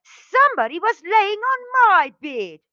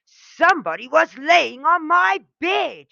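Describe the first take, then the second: First: Much higher, louder shrieking bear voice; Mommy Bear roar. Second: Loud, higher furious bear roar; angrier roar. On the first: Mommy Bear finds her bed used, roaring high and loud. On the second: Daddy Bear finds his bed used, roaring furiously. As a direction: bellow it, angrier than ever. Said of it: "even more angry and roared". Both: A narrator's reading.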